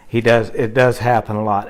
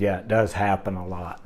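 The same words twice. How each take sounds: First: Said in the usual way. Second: Low, much softer, head-down reply; sheepish admission. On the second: Retold or imitated. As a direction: mumble the bad news reluctantly. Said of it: "he kinda lowered his head".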